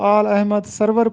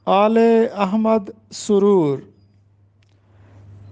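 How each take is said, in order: First: The name is said as aal ahmad sarwar. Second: The name is said as aale ahmad suroor. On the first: The speaker calls it wrong. "अक्सर तालिब इल्म इसको आल अहमद सरवर पढ़ते हैं" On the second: The speaker calls it right. "दुरुस्त तलफ़ुज़ है"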